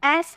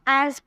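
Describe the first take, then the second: First: The word ends with a hissing s sound. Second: The word ends with a buzzing z sound. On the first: The speaker calls it wrong. "इसको एस नहीं पढ़ेंगे" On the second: The speaker calls it right. "एज पढ़ेंगे"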